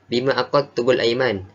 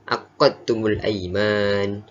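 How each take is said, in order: First: The qaf sound is short and single. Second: The qaf sound is held and doubled. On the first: "dia meringankan sebutan qaf" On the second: "baki qura' membaca dengan tasydid"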